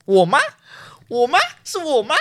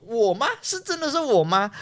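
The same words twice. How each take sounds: First: Shouted, much higher and louder, in disbelief. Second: Higher, raised disbelieving cry; loud shout. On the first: Student shouting at the senior who picked her in the lottery, loud disbelieving shout. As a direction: yell it out, stunned that it's you. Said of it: "我就很大声的喊说". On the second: Student retelling her shocked cry when her number came up, raised surprised call. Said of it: "我就真的很大声的喊说". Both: Retold or imitated.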